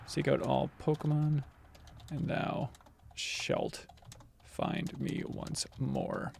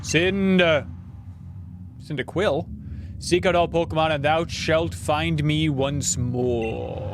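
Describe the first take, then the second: First: Slow whispered reread of the prophecy. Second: Slow, solemn deity reading; a light cool-Santa take on a god; Arceus voice. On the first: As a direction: breathe it out as a secret. Rereading the god's line. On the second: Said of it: "my Arceus impression is just basically my". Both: Acted.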